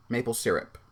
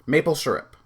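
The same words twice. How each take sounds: First: "syrup" as SEER-up; second variant. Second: "syrup" as SUR-up; first variant. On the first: Testing it after maple, SEER-up. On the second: Testing it after maple, SUR-up. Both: Shown as a demonstration. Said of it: "I forget how I say it".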